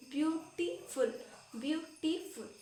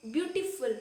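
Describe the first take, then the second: First: beautiful said slowly, syllable by syllable; broken into syllables. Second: Said in the usual way. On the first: Shown as a demonstration. Teacher showing students the syllables in a long word, broken up. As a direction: break beautiful into separate spoken chunks, drawn out. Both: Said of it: "इसको हम तोड़ तोड़ के बोल पाए".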